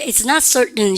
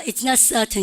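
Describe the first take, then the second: First: American model, R sounded and T weakened in "certain"; American English, curl the R in "certain"; American accent. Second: British model, no R and clear T in "certain"; British English, drop the R in "certain"; British accent. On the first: Teacher prompting class repetition in an American accent. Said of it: "R 발음 살려보고". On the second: Teacher prompting class repetition in a British accent. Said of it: "영국 애들은 certain 그래요". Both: Shown as a demonstration.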